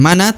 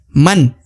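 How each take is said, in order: First: A vowel is added after the final n. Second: The word stops cleanly on the n. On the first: The speaker calls it wrong. "bukan mana" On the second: The speaker calls it right. "tapi man"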